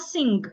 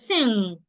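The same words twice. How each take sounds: First: A g sound is heard at the end. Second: No g sound is heard at the end. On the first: The speaker calls it wrong. "It is not sing" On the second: The speaker calls it right. "it is sing"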